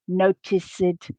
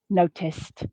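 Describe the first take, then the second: First: The ending adds a vowel; it is three syllables. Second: The ending adds no syllable; it is two syllables. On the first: The speaker calls it wrong. "this both adds a syllable and a vowel sound" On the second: The speaker calls it right. "the base form has the same number of syllables as the past tense ed form"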